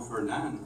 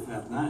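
First: The name is said with an English pronunciation. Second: The name is said with a French pronunciation. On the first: This is how the English-speaking principal called him. "et non Fernand" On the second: This is how the speaker was used to being called. "J'étais habitué de me faire appeler Fernand"

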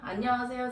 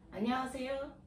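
First: It is said in a louder voice. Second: It is said in a quieter voice.

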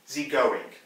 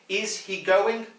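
First: The words 'is he' are squeezed into a short 'ze' sound. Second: The words 'is he' are said in full and separately.

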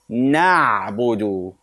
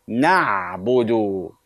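Both takes have the same delivery.

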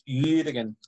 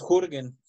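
First: The first vowel is i said with rounded lips. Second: The first vowel is a plain back u sound. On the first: The speaker calls it right. "es Jürgen" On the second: The speaker calls it wrong. "no es Jürgen"

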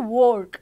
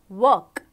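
First: The vowel sounds like 'or', as in 'fork'. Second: The vowel sounds like 'er', as in 'her'. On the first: The speaker calls it wrong. "We will not say work" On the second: The speaker calls it right. "We will say work because there is a W there"

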